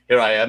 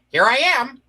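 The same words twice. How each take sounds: First: It is said in a Frasier-like voice. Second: It is said in a Get Smart-like voice.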